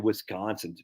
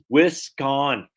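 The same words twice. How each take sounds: First: It is said in a Wisconsin accent. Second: It is said in a New York accent. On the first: This is how people from Wisconsin say it. The speaker calls it wrong. "You say Wisconsin" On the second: This is how the speaker's own region says it. The speaker calls it right. "how we do it? We say Wisconsin"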